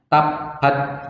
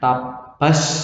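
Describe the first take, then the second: First: The final t has no hiss after it. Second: The final t becomes a strong s sound. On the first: "Salah kalau baca nggak ada S-nya, nggak ada hamsnya" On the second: "nggak boleh dibaca S banyak"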